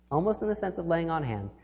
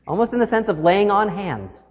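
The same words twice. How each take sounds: First: Much softer, letting it sink in; quieter repeat. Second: Said in the usual way. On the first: Shown as a demonstration. Preacher repeating image for congregation, hushed. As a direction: say it again hushed and reverent.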